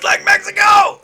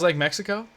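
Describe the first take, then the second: First: It is said with full, exaggerated character inflection. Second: It is said plainly, without exaggerated inflection. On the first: The speaker calls it right. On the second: The speaker calls it wrong.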